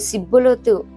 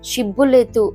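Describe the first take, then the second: First: The word begins with an 's' sound. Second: The word begins with a 'sh' sound. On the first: The speaker is an outsider who cannot say 'sh'. The speaker calls it wrong. "సిబ్బులేతు అని ఎవరైతే పలికారో వాళ్ళని అక్కడ తీసుకెళ్లి చంపేసినట్టు" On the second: The speaker belongs to the in-group. The speaker calls it right. "షీ షా అన్న మాట పలకటం రాదేమో"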